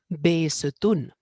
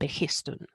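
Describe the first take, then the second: First: No h sound is pronounced in the middle. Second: An h sound is pronounced in the middle. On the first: This is how modern Persian speakers name it. The speaker calls it right. "no pronuncian esa aspiración, esa H" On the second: This is how English speakers name it. The speaker calls it wrong. "en inglés lo llaman Behistun"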